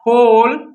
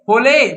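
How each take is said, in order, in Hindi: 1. शब्द खाली व्यंजन पर खत्म होता है। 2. अंतिम व्यंजन के बाद एक अतिरिक्त स्वर आता है।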